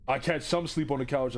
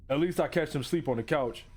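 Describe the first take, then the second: First: SOME given the main emphasis; stress on SOME. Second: Said in the usual way. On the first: Shown as a demonstration. Reader rereading the line about the couch, stressing "some". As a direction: lean on the word "some". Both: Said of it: "I stress the word some".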